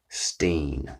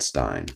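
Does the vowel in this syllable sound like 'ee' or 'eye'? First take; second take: ee; eye. First: The vowel sounds like 'ee', as in 'seen'. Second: The vowel sounds like 'eye', as in 'line'. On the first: This is how most people in the South said the name. "She said Steen" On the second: This is how one particular person said the name. "my mother who said Stein"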